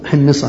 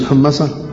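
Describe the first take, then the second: First: The word is said with the i vowel. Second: The word is said without the i vowel. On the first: The speaker calls it right. "حمصة هكذا بالكسر" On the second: The speaker calls it wrong. "مش الحمصة"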